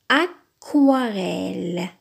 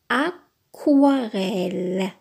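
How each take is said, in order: No difference in how they are said.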